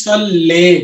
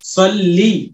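First: The word ends in a mid 'eh' vowel. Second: The word ends in a high 'ee' vowel. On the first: The speaker calls it wrong. "अगर हम इसको पढ़ते हैं सल्ले तो साउंड जा रहा है आपका साइड को" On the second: The speaker calls it right. "जेर तो साउंड किधर जाना चाहिए? नीचे को जाना चाहिए, तो कैसे पढ़ेंगे?"

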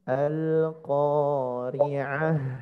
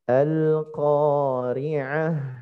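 First: The word ends with an h sound. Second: The word ends with an h sound.

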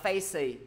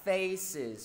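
First: The word ends on a vowel without z. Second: The word ends with a buzzing z sound. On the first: The speaker calls it wrong. "mọi người phải đọc z cho thầy nữa" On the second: The speaker calls it right. "đọc nối cái âm, âm gió đọc nối luôn"

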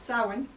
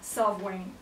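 First: The middle consonant is not a v sound. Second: The middle consonant is a v sound. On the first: This is the modern Irish pronunciation. "In modern Irish, it's Samhain" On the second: This is the likely Old Irish pronunciation. "more like a V sound rather than the way we pronounce the MH now"

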